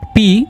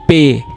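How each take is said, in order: First: The letter name ends in an ee sound. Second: The letter name ends in an ay sound. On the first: The speaker calls it wrong. "P is not P" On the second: The speaker calls it right. "it is pay"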